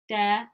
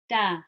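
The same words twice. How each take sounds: First: The vowel is dark and lowered, as if frowning. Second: The vowel is bright and open, as if smiling. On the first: The speaker calls it wrong. "That's wrong because you're going downwards" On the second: The speaker calls it right. "nice and open"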